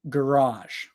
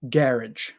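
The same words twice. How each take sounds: First: It is said in an American accent. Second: It is said in a British accent. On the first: "I'm American. I say garage" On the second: "most British people say garage or something like that"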